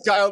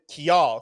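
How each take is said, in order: First: The name is said like 'Kyle'. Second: The name is said like 'Kial'. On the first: The speaker calls it right. "But it was Kyle the entire time" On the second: The speaker calls it wrong. "I just always pronounced it Kial"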